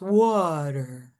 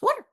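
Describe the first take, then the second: First: The word is stretched out slowly. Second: The word is squeezed short and quick. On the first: "if you elongate it" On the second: "If it's narrowed"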